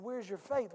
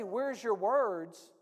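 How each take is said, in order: First: "Where's your faith?" plainly, landing on "faith"; the right version. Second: Slow, drawn-out "Where's your words?" with "words" as the odd word; the wrong version. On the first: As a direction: give "Where's your faith?" as what he really said, "faith" stressed. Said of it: "He said". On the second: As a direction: say "Where's your words?" slowly, as the version Jesus did not say. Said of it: "he didn't say". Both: Shown as a demonstration.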